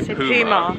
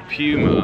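First: The first syllable sounds like 'poo'. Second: The first syllable sounds like 'pew'. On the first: This is how people in the other country say it. "they say puma, which we find hilarious because it's got the word poo in it" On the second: This is how the speaker's own country says it. "we say puma"

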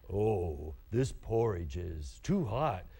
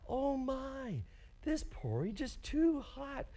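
First: It is said in Papa Bear's growly, low voice. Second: It is said in Mama Bear's higher, smoother voice.

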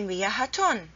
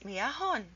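First: The word ends in -atun with a t sound. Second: The word ends in -ahun with an h sound. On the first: The speaker calls it wrong. "It's wrong to say miyahatun" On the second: The speaker calls it right. "Two dhammas, miyahun. That's the right way to pronounce it"

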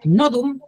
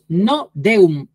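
First: The word is said whole, D as a plain sound. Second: The D is spoken as its letter name, split apart. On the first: It is simply the Latin word for knot. "tal cual no observamos nada" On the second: It hides the phrase meaning no God. "pronuncio la letra D aislada como letra"

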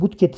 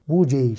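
First: The word is pronounced as it is spelled. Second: The word is pronounced differently from its spelling. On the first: The speaker calls it wrong. "Sakın aynı budget şeklinde telaffuz etmeyin" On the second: The speaker calls it right. "Budget şeklinde telaffuz etmeniz gerekiyor"

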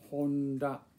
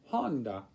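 First: No syllable is stressed more than another. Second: One syllable is stressed more than the other. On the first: The speaker calls it right. "you don't have to put an accent on any particular syllable" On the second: The speaker calls it wrong. "not Honda"

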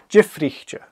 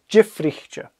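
The two takes are said the same way.

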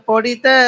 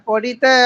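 The two takes are said the same way.

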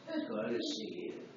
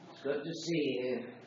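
First: A more exaggerated, anointed-sounding voice is used. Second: A milder put-on preachy voice is used.

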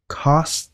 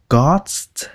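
First: The first consonant has a slight puff of air. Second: The first consonant is plain, without a puff. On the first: The speaker calls it right. "Nó lai giữa cái chữ cờ và chữ khờ nha" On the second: The speaker calls it wrong. "không phải là cờ nha, không phải là cost"

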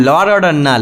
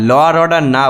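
No difference in how they are said.

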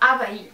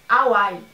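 First: The name is said with Portuguese sounds. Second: The name is said with English sounds. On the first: The speaker calls it wrong. "na verdade não fala Havaí" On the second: The speaker calls it right. "é Hawaii"

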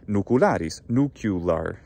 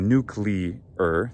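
First: The word ends with a 'cu-lar' sound. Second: The word ends with a 'clear' sound. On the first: "people do pronounce it that way" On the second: "that's how we normally say it"

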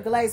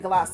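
First: The word ends with a z sound. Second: The word ends with an s sound. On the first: "some people say pear glaze" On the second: "we used to say glace"

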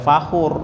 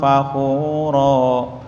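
First: The word ends abruptly on the r consonant. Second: The word ends with a drawn-out final vowel. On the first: The speaker calls it wrong. "Enggak boleh fakhur, enggak boleh" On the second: The speaker calls it right. "Harus panjang dua ketuk"

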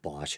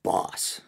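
First: The name ends with an sh sound. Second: The name ends with an s sound. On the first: "Everyone pronounces it like the power tool company" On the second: "I think I once read it's supposed to be pronounced boss"

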